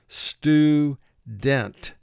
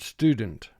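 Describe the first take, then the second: First: Each syllable and sound is said separately and exaggerated. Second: The word is said smoothly at normal conversational speed. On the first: The sounds are made to match the spelling. "the way we pronounce student for our spelling vocabulary" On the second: This is how the word is said in everyday speech. "in conversation we pronounce the word student"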